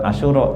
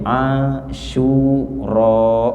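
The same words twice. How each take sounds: First: The second vowel is said short. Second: The second vowel is held long. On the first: The speaker calls it wrong. "bukan Asyura" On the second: The speaker calls it right. "tapi Asyura"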